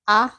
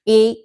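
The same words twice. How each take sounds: First: The vowel is the short sound, as in 'at'. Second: The vowel is the long sound, as in 'eight'. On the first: "So the short sounds are" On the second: "the long uh, vowel sounds are gonna sound like this"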